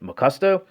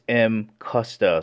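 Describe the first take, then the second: First: The name starts with the syllable 'ma'. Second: The name starts with the letter name 'em'. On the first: "a lot of people out there pronouncing it" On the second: "the actual correct pronunciation is"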